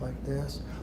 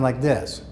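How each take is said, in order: First: The voice is very quiet and soft. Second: The voice is loud and strong. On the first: This is how the patient actually sounds. "the soft voice" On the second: This is how the patient believes they sound. "they think that they're yelling and screaming"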